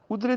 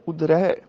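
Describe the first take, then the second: First: ਉਦਰੇ ending in narrow e; wrong ending. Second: ਉਦਰੈ ending in open ai; correct ending. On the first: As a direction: close the final vowel of ਉਦਰੇ to e. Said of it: "ਦੀ ਬਜਾਏ". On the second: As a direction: open the last vowel of ਉਦਰੈ to ai. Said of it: "ਉਦਰੇ ਦੀ ਬਜਾਏ". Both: Shown as a demonstration.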